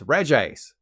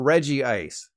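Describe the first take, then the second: First: The name begins with a one-syllable 'Reg'. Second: The name begins with a two-syllable 'Reggie'. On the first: The speaker calls it right. "It's Reg Ice" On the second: The speaker calls it wrong. "this is not Reggie Ice"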